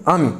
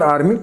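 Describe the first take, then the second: First: Teacher giving the right आर्मी, the r dropped, aa-mi; आर्मी said as aa-mi, no r sound; correct pronunciation. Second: Teacher saying the wrong आर्मी with a full r sound; आर्मी with the r fully sounded, marked as wrong; wrong pronunciation. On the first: Teacher to students, giving the right version, correct pronunciation. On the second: Teacher to students, rejecting the common version, wrong pronunciation. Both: Shown as a demonstration.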